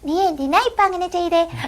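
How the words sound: It is said in an even tinier childlike voice. An even smaller character is speaking. "അതിലും കുഞ്ഞു voice ആണെങ്കിൽ"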